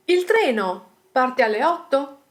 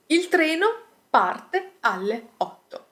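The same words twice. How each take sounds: First: "il treno parte alle otto" as a question, lifting at "otto"; rising question intonation. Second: "Il treno parte alle otto" as a statement, no rise on "otto"; statement intonation. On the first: Teacher turns statement into question, rising intonation on "otto". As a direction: ask it with a rise on the final "otto". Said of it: "there is a rising intonation in the end". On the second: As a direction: state it as fact, letting "otto" settle down at the end. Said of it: "The intonation here is flat". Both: Shown as a demonstration.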